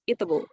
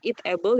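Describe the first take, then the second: First: The two words run together quickly. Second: The two words are said separately.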